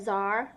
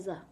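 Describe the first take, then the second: First: The final r sound is clearly pronounced. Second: The final r sound is dropped and softened. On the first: The speaker calls it wrong. "Instead of say zar" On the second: The speaker calls it right. "you say za"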